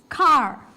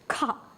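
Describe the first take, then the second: First: It ends with a clearly sounded R. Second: It ends in an open ah, no R sound. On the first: This is the American way. "in America, they're pronouncing the word R" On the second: This is the British way. "car එක pronounce වෙන්නේ like this ah sound"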